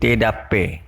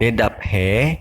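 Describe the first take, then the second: First: The p and h merge into one aspirated p. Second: The p and h are said separately. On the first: The speaker calls it right. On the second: The speaker calls it wrong.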